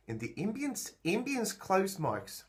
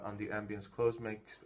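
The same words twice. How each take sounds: First: A Kiwi accent on ambience; New Zealand accent. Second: Said in the usual way. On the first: Shown as a demonstration. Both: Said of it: "now I'm talking with a New Zealand accent".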